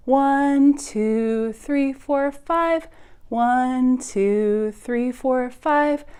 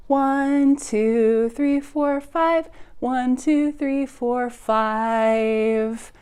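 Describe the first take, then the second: No difference in how they are said.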